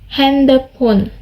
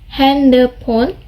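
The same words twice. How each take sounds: The two takes are said the same way.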